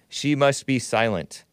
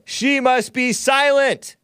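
First: It is said in a calm, plain way. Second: It is said forcefully with strong emphasis.

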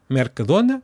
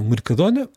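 First: The first vowel is a clear E sound. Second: The first vowel is reduced, not a clear E. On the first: "pronunciam com E" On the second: "os outros pronunciam"

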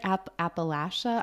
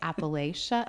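First: The word is pronounced the local way. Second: The word is pronounced the outsider way. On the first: The speaker is from the region. The speaker calls it right. "even the way you said it" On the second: The speaker is not from the region. The speaker calls it wrong. "I always say Appalachia"

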